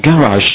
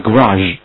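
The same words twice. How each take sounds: First: Garage first syllable as a full "gan-", then "-razh"; garage读法示范. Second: Garage first syllable reduced to "guh-", weight on "-RAZH"; garage另一读法. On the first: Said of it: "你可以念成garage或者念成garage". (garage第一音节读得饱满清晰) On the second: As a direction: say garage with a short, weak first vowel. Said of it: "或者念成garage". (garage第一音节弱读，重音靠后) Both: Shown as a demonstration.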